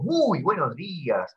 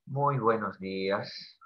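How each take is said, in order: First: Bright, slow, cheerful "Muy buenos días"; cheerful greeting. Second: Slow and much softer, lower, sad "Muy buenos días"; sad greeting. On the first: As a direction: greet the class with joy. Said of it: "ese es mi tono alegre". (saludo alegre y pausado) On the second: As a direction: say good morning as if heartbroken. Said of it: "O tal vez de tristeza". (saludo triste, lento y suave) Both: Shown as a demonstration.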